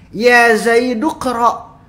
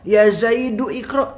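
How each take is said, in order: First: 'du' runs straight into 'qra' without 'i'. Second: An extra 'i' vowel is sounded before 'qra'. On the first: The speaker calls it right. "I-nya hilang, dari du langsung ke ek" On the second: The speaker calls it wrong. "i-nya itu sudah tidak diperlukan"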